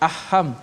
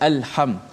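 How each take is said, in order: First: The L sound is dropped before h. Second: The L sound is pronounced clearly before h. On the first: The speaker calls it wrong. "Kita tak baca aham" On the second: The speaker calls it right. "lam itu dijelaskan mati al"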